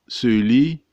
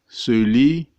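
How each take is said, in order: No difference in how they are said.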